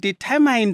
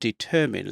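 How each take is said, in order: First: The word is pronounced just as it is spelled. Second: The word is pronounced in native English style. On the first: "we pronounced English words exactly as they were written" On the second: "you guys pronounce it the way you pronounce them"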